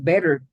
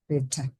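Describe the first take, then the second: First: The middle consonant is a soft flap. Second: The middle consonant is a clear T. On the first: "So, so American English is better" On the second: "But in Europe, they say better, no? ... The T sound"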